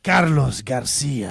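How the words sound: The name is said with a Latino accent.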